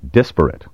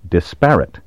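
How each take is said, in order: First: The stress is on the first syllable. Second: The stress is on the second syllable. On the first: "places the stress on the first syllable" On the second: "with the accent on the second syllable"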